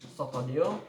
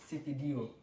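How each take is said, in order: First: An o vowel is added after s and t. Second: An i vowel is added after s and t. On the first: A Sundanese speaker says it this way. "orang-orang Sunda menyebutnya" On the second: A Javanese speaker says it this way. "sedangkan yang Jawa"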